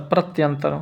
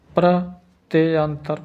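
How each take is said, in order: First: Said in the usual way. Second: प्रत्यंतर drawn out slowly, syllable by syllable; dictating प्रत्यंतर at half speed; slow dictation. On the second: Shown as a demonstration. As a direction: spell प्रत्यंतर aloud slowly for the class to write. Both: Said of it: "प्रत्यंतर ऐसे लिखेंगे".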